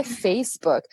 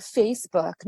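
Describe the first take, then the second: First: Facebook said the Brazilian Portuguese way, like Feicibuqui; Brazilianized Facebook; Brazilian pronunciation. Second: Facebook said the English way, as in American English; forced English Facebook; English pronunciation. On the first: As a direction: adapt Facebook to Portuguese sounds with a final i. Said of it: "não é Facebook". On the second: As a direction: give Facebook its full English vowels and ending. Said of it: "forçando a barra e falar Facebook". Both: Shown as a demonstration.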